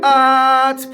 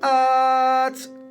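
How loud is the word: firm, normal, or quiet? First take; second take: firm; normal. First: The word is said firmly and loudly. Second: The word is said at normal talking volume. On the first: "Three is firm. Push it loud" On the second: "True voice, clean. Just relax like you're chatting"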